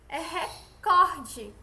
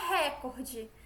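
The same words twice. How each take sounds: First: "recorde" very slow, loud on "cor"; stress on second syllable. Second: "recorde" said as "récorde", stressed on "re"; wrong first-syllable stress. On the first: Teacher correcting the stress, slow "recorde" stressed on "cor". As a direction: stretch and punch the "cor" in "recorde". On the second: Teacher showing what to avoid, "recorde" stressed on "re". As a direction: hit the first syllable of "recorde", falling after. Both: Shown as a demonstration. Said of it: "não é recorde".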